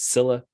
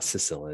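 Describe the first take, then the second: First: The name is said as 'Scylla'. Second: The name is said as 'Sicilla'. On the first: The speaker calls it right. "it's Scylla" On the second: The speaker calls it wrong. "it's not Sicilla"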